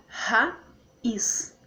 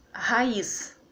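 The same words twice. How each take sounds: First: "raiz" as ra-iz, very slowly; split into syllables. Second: Said in the usual way. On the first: Shown as a demonstration. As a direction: pause between ra and iz in raiz.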